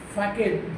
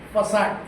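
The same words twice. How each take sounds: First: The middle consonant sounds like a k. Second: The middle consonant sounds like an s. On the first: The speaker calls it wrong. "Many will be tempted to uh, spell it as, pronounce it as facade" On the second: The speaker calls it right. "but that is facade"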